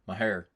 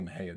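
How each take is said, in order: First: The word ends with an r, in a southern drawl. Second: The word ends in a vowel, without an r. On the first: "They are so southern and such a thick draw. They say Mahir" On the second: "Some of them don't say Mahia"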